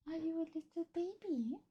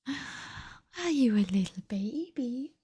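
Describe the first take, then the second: First: Tiny, high, very soft coo. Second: Slow, drawn-out coo. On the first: Streamer asks her cat if it's baby, high hushed coo. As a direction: squeak it softly up high to a pet. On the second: Streamer asks her cat if it's baby, slow cooing. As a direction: coo it slowly, stretching the words. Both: Real, not acted.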